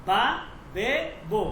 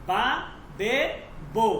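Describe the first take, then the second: No difference in how they are said.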